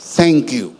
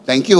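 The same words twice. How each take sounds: First: It is said warmly, with sincere feeling. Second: It is said casually, as a mere habit. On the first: It is sincere and comes from the heart. The speaker calls it right. "iba talaga yung mula sa puso" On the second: It is said out of habit, without real feeling. The speaker calls it wrong. "parang nasanay na lang tayo. Parang binibigkas na lang natin"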